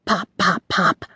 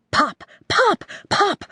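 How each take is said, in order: First: Said in the usual way. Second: Higher, bouncy pops; lively pop sounds. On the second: A narrator's reading. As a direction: pop them out playfully. Narrated fluxing sounds.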